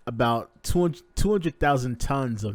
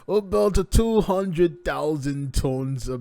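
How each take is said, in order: First: It is said in his ordinary accent. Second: It is said in a put-on Russian accent.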